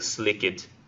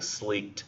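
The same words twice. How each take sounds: First: The ending -ed is a separate syllable. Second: The ending -ed is not a separate syllable. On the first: "you're pronouncing that last" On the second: "He's just saying sleeked"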